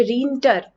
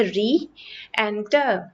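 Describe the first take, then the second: First: रीएंटर run together as rinter; wrong pronunciation. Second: रीएंटर slowly, ree then enter kept apart; slow careful pronunciation. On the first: Teacher shows the wrong reading of re-enter, the e swallowed. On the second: Teacher slowly shows the correct re-enter, both vowels clear. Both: Shown as a demonstration. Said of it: "लेकिन ये रीएंटर नहीं है".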